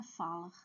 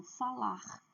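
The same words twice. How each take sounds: First: Falar stressed on FA, with weak -lar; wrong stress. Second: Falar with a strong, long -LAR; stress on last syllable. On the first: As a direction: misstress falar on its first syllable. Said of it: "Não é falar". (falar com a primeira sílaba forte) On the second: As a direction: lean on the final syllable of falar. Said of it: "a última sílaba é forte". (falar com a última sílaba forte) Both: Shown as a demonstration.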